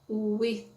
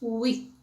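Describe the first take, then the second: First: The final th sound is clearly pronounced. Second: The final th sound is nearly dropped. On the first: "com a língua entre os dentes" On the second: "esse som a gente praticamente nem pronuncia"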